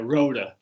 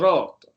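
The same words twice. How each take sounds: First: The name is said with an American pronunciation. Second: The name is said with an Italian pronunciation. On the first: The speaker calls it wrong. "like an American" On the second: The speaker calls it right. "how the Italians would pronounce it"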